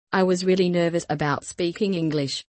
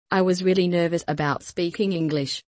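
The two takes are said the same way.

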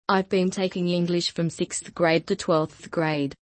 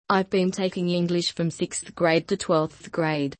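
The two takes are said the same way.

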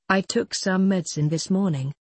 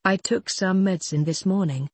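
Both takes have the same delivery.

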